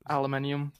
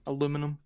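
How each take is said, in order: First: The word is said with five syllables. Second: The word is said with four syllables. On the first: The speaker calls it wrong. "aluminium is not how you say it" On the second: The speaker calls it right. "it's aluminum"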